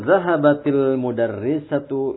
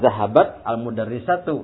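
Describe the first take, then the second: First: The words run together with a linking 'il' sound. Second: The words are broken apart with a separate 'al'. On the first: "kalau diwasol itu cara bacanya" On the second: "Kalau diputus-putus"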